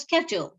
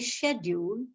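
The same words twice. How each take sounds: First: It is said with an American pronunciation. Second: It is said with a British pronunciation. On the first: "the way Americans would say it" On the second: "which is British"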